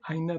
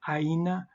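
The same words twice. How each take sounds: First: The vowels are said fast and blended together. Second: The vowels are kept separate and said slowly. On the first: "it's kind of said so fast that it kind of mushes together" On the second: "instead of saying aina"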